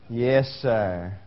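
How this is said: It is said in a grudging, insincere tone. The speaker complies outwardly but resents it. The speaker calls it wrong. "Don't give me this. ... I ain't taking that"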